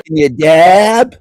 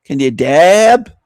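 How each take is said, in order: First: Slow, louder mock hick drawl. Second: Slow mock hick drawl, louder. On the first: Mocking the loud woman's accent, slow hick drawl. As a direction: sneer it back in her twang. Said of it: "What kind of accent is that?". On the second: Mocking the loud woman in the clip, slow hick drawl. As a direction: parrot her with a sneer. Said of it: "Listen to the loud woman".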